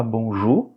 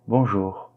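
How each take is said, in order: First: "bonjour" with no R, ending on a rising "oo"; dropped final R. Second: "Bonjour" with a lightly sounded final R. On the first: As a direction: drop the R of "bonjour" completely. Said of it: "Ce n'est pas bonjour". (« bonjour » sans R final, finissant sur « ou ») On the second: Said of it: "il est légèrement prononcé". (« Bonjour » avec un R final léger) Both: Shown as a demonstration.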